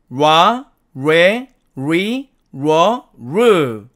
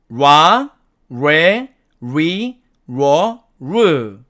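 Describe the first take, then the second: The two takes are said the same way.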